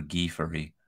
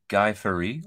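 First: "Guy" said as "ghee"; French pronunciation of Guy. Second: "Guy" rhyming with "eye"; English pronunciation of Guy. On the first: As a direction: say "Guy" with a hard g and an "ee". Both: Shown as a demonstration. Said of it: "depends on where you live".

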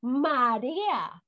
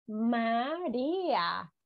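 First: "marea" with the middle vowel stretched, /maɾeea/; "marea" pulled apart vowel by vowel; drawn-out example. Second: Said in the usual way. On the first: Shown as a demonstration. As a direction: sound out "marea" slowly for the class. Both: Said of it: "como por ejemplo".

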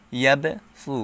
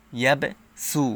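First: ইয়াবে, সু with a heavy, emphatic s in সু; pronounced with sad. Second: ইয়াবে, সু with a thin, plain s in সু; pronounced with sin. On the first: Teacher offers the sad reading, সু said with a heavy s. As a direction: thicken the s of সু, as the letter sad. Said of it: "সদ দিয়ে উচ্চারণ করতে পারেন". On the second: Teacher offers the sin reading, সু said with a thin s. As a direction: keep the s of সু light, as the letter sin. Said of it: "সিন দিয়ে উচ্চারণ". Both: Shown as a demonstration.

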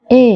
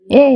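First: The letter এ said as the common wrong form; mispronounced A. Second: The letter "এ" as a drawn-out English ay glide; correct A. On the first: Teacher showing learners the usual faulty এ, mispronounced. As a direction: give the everyday "এ", the version to be corrected. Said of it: "এটা এ না". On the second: Teacher showing learners the proper alphabet sound, correct A. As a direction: say "এ" long, gliding toward ee. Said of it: "সঠিক উচ্চারণ হচ্ছে". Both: Shown as a demonstration.

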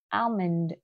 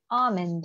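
First: Almond with the L pronounced, "al-mund"; American sounded L. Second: Almond with no L, "ah-mund"; British silent L. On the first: Teacher shows the American version, Almond with sounded L. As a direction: say Almond the US way, L audible. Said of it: "American version thì là al". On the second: Teacher contrasts with American version, almond with silent L. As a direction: say almond the UK way, dropping the L. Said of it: "người ta không đọc âm L". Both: Shown as a demonstration.

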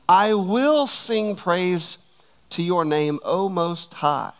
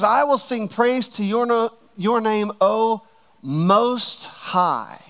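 First: Slow, drawn-out "I will sing praise"; emphatic praise. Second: High "I will sing praise", then very slow "Most High"; extra emphasis. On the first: Preacher reading David's praise to the church, emphatic praise. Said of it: "I want you to hear emphatic praise". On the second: Preacher stressing David's words for the church, extra emphatic. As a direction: stretch "Most High" out after a pause. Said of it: "read those two verses again and extra emphasize". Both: Shown as a demonstration.

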